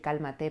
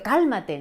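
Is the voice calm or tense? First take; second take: calm; tense. First: It is said in a calm, quiet tone. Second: It is said in a tense, pressing tone. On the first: The speaker conveys tranquility to the other person. The speaker calls it right. "de decirlo tranquilo las cosas, sí puedes decir cálmate" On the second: The speaker puts more pressure on the other person. The speaker calls it wrong. "Que eso es contraproducente"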